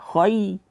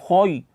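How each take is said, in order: First: The vowel sounds thin and open. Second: The vowel sounds thick and rounded. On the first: The speaker calls it right. "kha tebal, ya tipis. Jadi khay suaranya turun ke bawah" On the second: The speaker calls it wrong. "jangan sampai baca khoy. Khoy ianya menjadi tebal"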